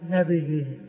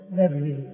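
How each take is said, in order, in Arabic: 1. الباء تتبعها حركة الكسرة. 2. لا تتبع الباء أي حركة. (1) "هذا هو الغلط" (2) "والضبط الثاني"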